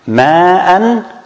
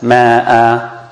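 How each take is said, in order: First: The word ends with an n sound. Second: The word ends with a long a vowel.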